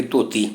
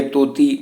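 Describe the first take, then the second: First: ਧੋਤੀ with the dh pressed down; pressed dh sound. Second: ਤੋਤੀ with a straight, unpressed t; straight t sound. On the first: Teacher contrasting the two consonants, pressed dh. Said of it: "ਧੱਦੇ ਦੀ ਆਵਾਜ਼ ਦਬਾ ਕੇ ਨਿਕਲਦੀ ਹੈ". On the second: Teacher contrasting the wrong sound, straight t. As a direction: say ਤੋਤੀ with a simple dental t. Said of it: "ਤੱਤੇ ਦੀ ਸਿੱਧੀ ਨਿਕਲਦੀ ਹੈ". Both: Shown as a demonstration.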